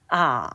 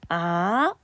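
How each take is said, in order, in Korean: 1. 낮은 음으로 내려갔다가 다시 올라가요. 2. 중간 음에서 높은 음으로 올라가요. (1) "낮은 음에서 가장 낮은 음으로 더 내려갔다가 사까지 올라가요" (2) "미에서 솔로 상승하는 음가입니다"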